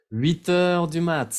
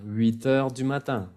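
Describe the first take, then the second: First: "Huit heures du mat" dicho despacio, cortando "mat" sin la "-in"; "mat" seco, como lo dicen los jóvenes franceses; clipped slang form. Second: Said in the usual way. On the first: Shown as a demonstration. ("Huit heures du mat" en forma coloquial, despacio)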